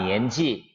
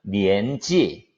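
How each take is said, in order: First: The final syllable falls in pitch. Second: The final syllable rises in pitch. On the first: It means age. "나이는" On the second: It means school grade. "학년은 니엔지 끝을 올리고"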